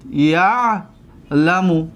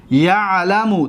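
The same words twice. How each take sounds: First: یعلم drawn out very slowly, split after the first syllable; slow syllable demonstration. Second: Said in the usual way. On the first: Shown as a demonstration. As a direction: stretch the first syllable of یعلم, pause, then finish it. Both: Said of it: "دقت بتید".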